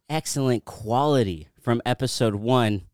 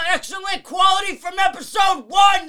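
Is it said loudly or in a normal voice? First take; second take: normal; loudly. First: It is read out at normal loudness. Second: It is yelled loudly and excitedly.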